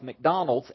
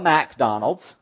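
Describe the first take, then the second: First: The first syllable is short and reduced. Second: The first syllable is a full, separate 'Mac'. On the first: The speaker calls it right. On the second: The speaker calls it wrong.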